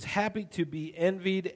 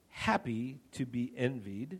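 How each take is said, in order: First: The phrase is read at a normal pace. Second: The phrase is read at a slower pace.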